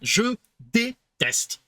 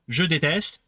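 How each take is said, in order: First: The syllables des and teste are pulled apart. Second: The syllables of déteste run smoothly together.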